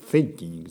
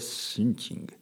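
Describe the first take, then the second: First: It is said with an English pronunciation. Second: It is said with a Japanese pronunciation. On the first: "thinking じゃなくて" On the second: "日本語っぽくシンキングですよ"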